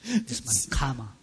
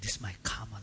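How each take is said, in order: First: The phrase is said in a happy, accepting tone. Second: The phrase is said in an unhappy, resigned tone. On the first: The situation is accepted as one's own doing. The speaker calls it right. "With a happy mind" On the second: Nothing can be done about the situation. The speaker calls it wrong. "Then say unhappily like that"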